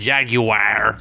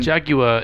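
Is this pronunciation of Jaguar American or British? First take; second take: American; British. First: The word is said the American way. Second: The word is said the British way. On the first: The speaker calls it wrong. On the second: The speaker calls it right.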